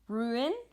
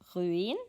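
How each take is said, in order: First: It has an English pronunciation. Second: It has a Norwegian pronunciation.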